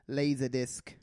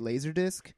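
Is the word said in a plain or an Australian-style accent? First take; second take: Australian-style; plain. First: It is said in an Australian or New Zealand-like accent. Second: It is said in the speaker's ordinary accent. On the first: "the way that they say it is Laserdisc. ... I said that very New Zealand-y" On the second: "you say Laserdisc"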